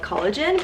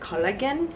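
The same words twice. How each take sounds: First: The word is said with an English pronunciation. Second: The word is said with a Korean pronunciation. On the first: "in the West we call it collagen" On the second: "in Korea they pronounce it collagen"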